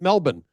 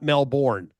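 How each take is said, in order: First: It is said with a local Australian pronunciation. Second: It is said with an American pronunciation. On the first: The speaker calls it right. "learned how to pronounce it Melbourne" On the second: The speaker calls it wrong. "not Melbourne, as we would say in America"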